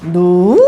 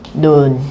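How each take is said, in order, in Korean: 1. 이 단어는 낮게 시작해서 올라가요. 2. 이 단어는 낮은 음이에요. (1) "낮았다가 높아지는 음이라고 했죠. 그럼 두 개가 있으면 눈" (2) "평성은 가장 어떤 음? 낮은 음입니다"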